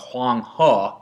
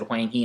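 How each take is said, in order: First: He is said with a Chinese sound. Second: He is read like the English word he. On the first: "instead of Huang He" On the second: "The reason I said Huang He"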